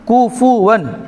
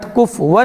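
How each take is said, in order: First: The syllables are pronounced clearly apart. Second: The syllables are run together quickly. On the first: The speaker calls it right. "कुफुवन अलग अलग" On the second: The speaker calls it wrong. "कुफुवन डायरेक्ट बोलते हैं"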